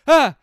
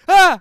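First: The scream is quieter. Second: The scream is louder.

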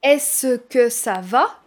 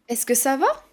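First: The vowel of 'ce' is pronounced. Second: The vowel of 'ce' is dropped. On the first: "Au lieu de dire" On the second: "C'est plus naturel"

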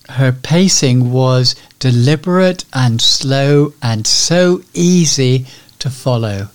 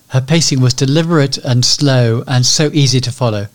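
First: The sentence is spoken slowly and deliberately. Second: The sentence is spoken quickly and hurriedly. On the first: "her pacing was deliberate and slow" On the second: "as opposed to"

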